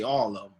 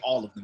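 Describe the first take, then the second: First: 'Them' is reduced to 'em', Florida style. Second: 'Them' is said in full, standard style.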